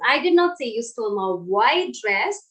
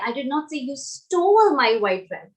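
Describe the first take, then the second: First: The word white carries the stress. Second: The word stole carries the stress. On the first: A dress of another colour was stolen. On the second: Something else was done with it. "So maybe you did something else with it"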